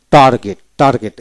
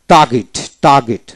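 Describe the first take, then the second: First: টার্গেট as "tar-get", R sounded; general pronunciation. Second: টার্গেট as "taa-git", R silent; phonetic dropped R. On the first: Teacher gives general form to learners, R voiced in টার্গেট. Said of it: "general উচ্চারণ হল". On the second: Teacher gives phonetic form to learners, টার্গেট without R. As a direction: drop the R in টার্গেট. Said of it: "phonetics উচ্চারণ হলো". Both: Shown as a demonstration.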